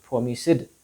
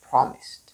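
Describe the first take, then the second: First: The ending is a d sound. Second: The ending is a t sound. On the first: The speaker calls it wrong. "not promised" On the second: The speaker calls it right. "promised t sound"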